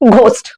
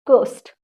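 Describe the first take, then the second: First: The word starts with a breathy 'gh' sound. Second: The word starts with a plain 'g' sound. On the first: The speaker calls it wrong. "घोस्ट सही है? No." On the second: The speaker calls it right. "यहां पे आपका एच silent होता है"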